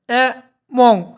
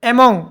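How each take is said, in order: First: The word is said slowly, split into syllables. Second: The word is said smoothly, all at once.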